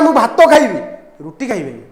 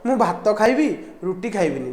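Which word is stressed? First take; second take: भात; neither. First: Rice gets strong stress; bread gets less. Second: Rice and bread get equal stress. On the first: Rice is wanted, not bread. The speaker calls it right. "भात उपर stress गला रुटी उपर stress कमीगला" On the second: The contrast between rice and bread is unclear. The speaker calls it wrong. "जब दुईटा जाक सामान वे कहबनी"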